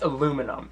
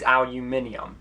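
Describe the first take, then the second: First: Aluminum said the American way, a-LOO-mi-num with four syllables; right pronunciation. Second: Aluminium said the British way, al-yoo-MIN-ee-um with five syllables; wrong pronunciation. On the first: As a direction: say aluminum with stress on LOO and no extra i. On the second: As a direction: say aluminium with the extra i, stress on MIN. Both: Shown as a demonstration. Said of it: "It's pronounced aluminum".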